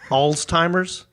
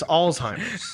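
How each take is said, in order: First: A t sound is inserted in the middle. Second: No t sound is in the middle. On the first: The speaker calls it wrong. "it's not Alzheimer's" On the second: The speaker calls it right. "it's Alzheimer's"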